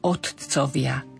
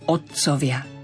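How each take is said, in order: First: The t sound is fully released and clearly pronounced. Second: The t sound is only held back, barely released. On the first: The speaker calls it wrong. "Zvádza nás to k tomu, aby sme povedali otcovia" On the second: The speaker calls it right. "tamto T je len také zadržané"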